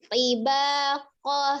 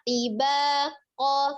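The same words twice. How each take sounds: No difference in how they are said.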